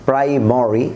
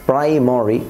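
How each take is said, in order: The two takes are said the same way.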